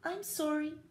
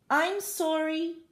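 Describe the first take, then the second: First: It is said just slightly louder. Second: It is said louder still.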